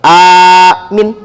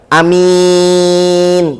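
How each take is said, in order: First: Only the first vowel is drawn out long. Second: Only the second vowel is drawn out long. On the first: "hamzahnya panjang, mimnya pendek" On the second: "hamzahnya pendek, mimnya panjang"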